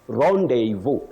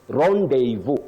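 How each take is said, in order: Both takes have the same delivery.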